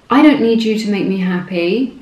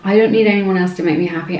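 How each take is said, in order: First: It is said in a sassy tone. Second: It is said in a sincere, warm tone.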